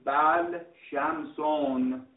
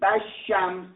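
First: The L is pronounced separately before sh. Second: The L merges into a doubled sh sound. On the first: "جایز است بگی بل شمسون" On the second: "جایز است بگی بش شمس"

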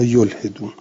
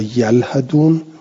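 First: The word begins with yul, vowel i after h. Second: The word begins with yal, vowel a after h. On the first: "باب افعال گرفتند" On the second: "به فتح الیاء والها"

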